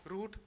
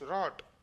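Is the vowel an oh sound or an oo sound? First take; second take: oo; oh. First: The vowel is a long oo sound. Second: The vowel is an oh sound. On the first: This is the modern pronunciation. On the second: This is the original older pronunciation.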